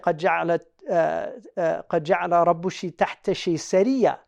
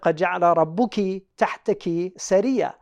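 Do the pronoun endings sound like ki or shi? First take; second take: shi; ki. First: The pronoun endings are pronounced shi. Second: The pronoun endings are pronounced ki. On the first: This is a rare ancient dialect reading. "a rare reading, where they say" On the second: This is the standard reading. "So instead of"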